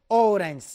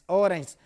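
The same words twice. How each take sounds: The two takes are said the same way.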